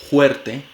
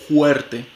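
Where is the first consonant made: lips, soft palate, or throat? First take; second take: throat; throat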